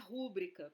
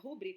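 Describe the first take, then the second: First: The stress is on the first syllable. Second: The stress is on the second syllable. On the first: The speaker calls it wrong. "E não é rúbrica" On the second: The speaker calls it right. "não é uma palavra proparoxítono"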